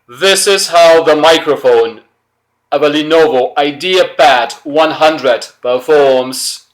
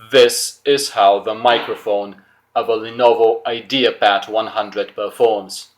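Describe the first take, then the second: First: It is spoken very loudly, with a strongly raised voice. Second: It is spoken somewhat louder than normal conversation. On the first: "now I'm really gonna raise my voice" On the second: "Let's raise my voice a bit"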